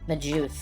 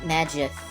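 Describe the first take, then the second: First: The G is pronounced soft, as in 'gem'. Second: The G is pronounced hard, as in 'go'. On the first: The speaker calls it right. "despite the word Magus being a soft G" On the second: The speaker calls it wrong. "a lot of people pronounce the name Magus with a hard G"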